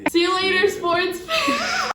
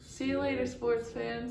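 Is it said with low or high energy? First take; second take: high; low. First: It is said with more enthusiastic energy. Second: It is said with ordinary, lower energy.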